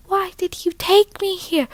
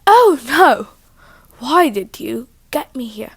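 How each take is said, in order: First: High-pitched put-on accent for Persephone. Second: Put-on teenage girl voice, louder opening wail; Persephone. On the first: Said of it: "what accent Persephone would have had". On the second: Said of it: "teenager, right?".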